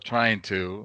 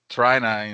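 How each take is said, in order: First: Both words are said fully and clearly. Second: The words are squeezed into a short reduced form. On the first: The speaker calls it right. "instead of trying to" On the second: The speaker calls it wrong. "you get people uh saying trying to"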